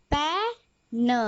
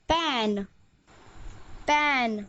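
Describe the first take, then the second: First: पै and न said slowly as two sounds; phonics-style slow पै, then a lone न; sounded out. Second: पै and न joined into one word पैन; पैन blended, gliding into the final न. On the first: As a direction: break it into पै, pause, न. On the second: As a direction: say पैन whole, then repeat it. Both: Shown as a demonstration. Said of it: "एन का उच्चारण है".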